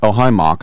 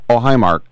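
First: The R in 'Mark' is dropped. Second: The R in 'Mark' is pronounced.

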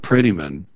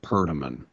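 First: The first part sounds like the word pretty. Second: The first part is reduced to a perdi sound. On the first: The speaker calls it right. "I'll go with Prettyman" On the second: The speaker calls it wrong. "he pronounced it Perdiman"

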